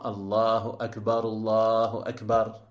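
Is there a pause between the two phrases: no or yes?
no. The two phrases run together without a pause. The speaker calls it right. "il convient de les prononcer ensemble"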